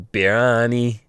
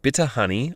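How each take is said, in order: First: The two words are slurred into one word. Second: Both words are pronounced clearly and separately. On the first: "they slur it" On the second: "Instead of saying "bitter honey""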